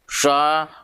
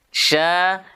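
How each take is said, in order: First: It is said with pouted, rounded lips. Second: It is said with spread, smiling lips. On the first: The speaker calls it wrong. "biasanya mulut kita monyong" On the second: The speaker calls it right. "seperti ketika orang tersenyum"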